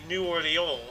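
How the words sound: The name is said with a French pronunciation.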